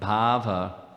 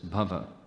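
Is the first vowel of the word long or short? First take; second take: long; short. First: The first vowel is drawn out long. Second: The first vowel is kept short. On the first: It means ecstasy, an ecstatic state of mind. "we often hear about bhava, and that's not what this is" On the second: It means material existence and its misery. "This is bhava. Quite different"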